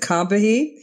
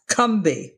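First: The name is said with three syllables. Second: The name is said with two syllables. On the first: The speaker calls it wrong. "We always pronounce it Combahee" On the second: The speaker calls it right. "It's actually pronounced Cumbie, like it has two syllables"

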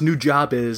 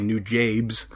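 First: The name's second part sounds like 'jobbies'. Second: The name's second part sounds like 'jabes'. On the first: The speaker calls it right. "It's pronounced New Jobbies" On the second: The speaker calls it wrong. "not the people I've talked to who say New Jabes"

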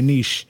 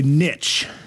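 First: The word is pronounced the fancy way. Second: The word is pronounced the American way. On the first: The speaker is being fancy. "If you want to be fancy about it, yeah, you say a niche" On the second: The speaker is being American. "If you want to be American, you say niche"

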